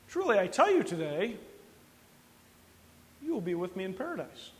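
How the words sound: The pause comes after the word today.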